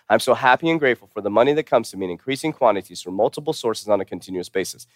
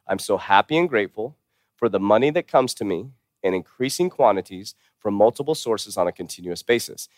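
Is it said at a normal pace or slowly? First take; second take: normal; slowly. First: It is said at a normal pace. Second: It is said slowly.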